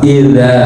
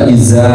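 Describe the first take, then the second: First: The final consonant is released without any breath. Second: The final consonant is released with a puff of breath. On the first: The speaker calls it right. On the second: The speaker calls it wrong.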